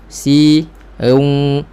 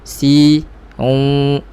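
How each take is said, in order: Both takes have the same delivery.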